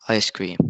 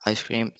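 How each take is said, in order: First: "ice cream" stressed on the first word, ICE cream. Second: "ice cream" said like I SCREAM; stress on second word. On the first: Student presenting stress example, "ice cream" with stress on ICE. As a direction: lean on "ice", let "cream" fall. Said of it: "word stress wrongly". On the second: Student showing misunderstanding, "ice cream" stressed on CREAM. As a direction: shift the weight of "ice cream" onto "cream". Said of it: "If you pronounce it". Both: Shown as a demonstration.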